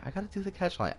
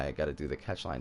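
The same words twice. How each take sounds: First: Much higher, whiny complaint; squeaky mock whine. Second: Said in the usual way. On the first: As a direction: squeak it like a reluctant kid. Repeats line in squeaky whine.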